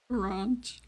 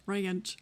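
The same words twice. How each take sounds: First: "ranch" with a long, open ah; mock it as a drawn-out "rahnch"; British-sounding ranch. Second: "ranch" said as "ray-anch"; spelt-out pronunciation. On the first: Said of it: "you went British". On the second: Shown as a demonstration. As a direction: say "ranch" with an ay glide before anch. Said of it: "R A Y A N C H".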